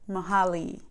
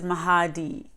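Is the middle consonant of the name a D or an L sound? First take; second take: L; D. First: The middle consonant is an L sound. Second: The middle consonant is a D sound. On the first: The speaker calls it wrong. "not Mahali" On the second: The speaker calls it right. "I'm also known as Mahadi"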